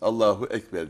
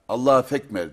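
First: The second word begins with a vowel. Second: The second word begins with an f sound. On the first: The speaker calls it right. "Anne öyle demeyeceksin. Allahu Ekber diyeceksin" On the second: The speaker calls it wrong. "Allah'a fekmer derdi"

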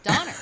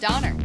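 First: The word ends with heavy, exaggerated inflection. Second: The word ends flat with little inflection. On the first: The speaker calls it wrong. "I put too much on there" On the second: The speaker calls it right. "you did better than John and I"

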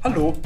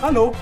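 First: It is said with a Standard German accent. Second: It is said with a Swiss German accent. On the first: "Auf Hochdeutsch ist es so" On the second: "Auf Schweizerdeutsch ist es"

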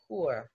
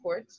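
First: The final T is silent. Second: The final T is pronounced. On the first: The speaker calls it right. "we don't pronounce the T's at the end of the French words normally" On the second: The speaker calls it wrong. "we're not saying court"

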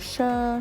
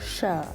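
First: The syllable is said in tone one, level. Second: The syllable is said in tone three, low. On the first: "เราจะผันตามลำดับไป" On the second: "เสียงสามเอก"

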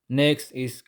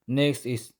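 No difference in how they are said.

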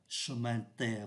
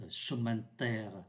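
Both takes have the same delivery.

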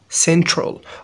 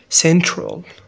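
No difference in how they are said.

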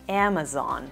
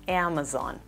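First: The first vowel falls between 'a' and 'e'. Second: The first vowel falls between 'a' and 'e'.

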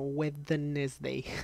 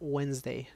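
First: Every written letter of the word is sounded out. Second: The word is said in its usual reduced form. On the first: It is a memory aid for the spelling. The speaker calls it wrong. "me lo grabé como Wednesday. Como era difícil de escribir" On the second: It is the real pronunciation. The speaker calls it right. "Pero se pronuncia Wednesday"

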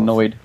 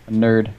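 First: It is said in a Jersey accent. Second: It is said in a plain accent.

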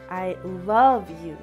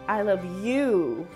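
First: The stress falls on the word 'love'. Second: The stress falls on the word 'you'. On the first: What the speaker feels for you really is love. "The second means that what I feel for you is love" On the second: The speaker loves you and nobody else. "The third means that I love you and you alone"

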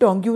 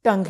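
First: The word ends with a 'gyoo' sound. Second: The word ends with a plain 'ng' sound. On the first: The speaker calls it wrong. "टोंग्यू नहीं" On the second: The speaker calls it right. "टंग है"

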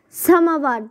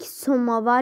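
First: The first vowel sounds like a. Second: The first vowel sounds like o. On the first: This is how the word is said in everyday speech. "Samavar deyirik" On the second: This is how the word is written. "O yazmalıyıq burada"

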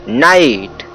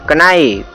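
First: The word starts with an n sound. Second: The word starts with a k sound. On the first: The speaker calls it right. "इसे नाइट पढ़ा जाता है" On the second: The speaker calls it wrong. "न कि इसे पढ़ेंगे कनाइट"

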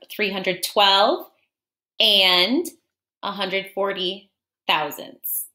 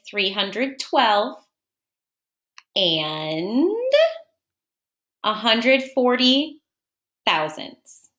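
First: It is said at a quicker pace. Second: It is said at a slower pace.

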